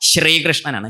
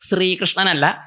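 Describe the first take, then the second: First: The word begins with an 'sh' sound. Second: The word begins with a plain 's' sound. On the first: The speaker calls it right. "ശ ര ശ്ര ശ്രീ" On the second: The speaker calls it wrong. "സ റ സ്ര ... അത് വേറെ അക്ഷരേ"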